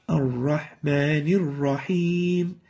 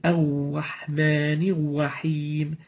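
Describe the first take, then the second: First: The lips stay unrounded on the R. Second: The lips are rounded, giving a w-like R. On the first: The speaker calls it right. "the right way of pronouncing it is" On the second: The speaker calls it wrong. "pursing the lips while pronouncing the Ra ... it gives it a wow sort of a sound. This is wrong"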